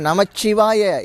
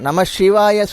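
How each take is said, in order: First: The syllable is said with a doubled 'ch' sound. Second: The syllable is said with a 'sh' sound. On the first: "அதே மாதிரி நமச்சிவாய இச்சு சொல்கிறீங்க" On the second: "சில பேர் நம சிவாய சொல்கிறீங்க. ஷி என்ற எழுத்து அங்கே இல்லை"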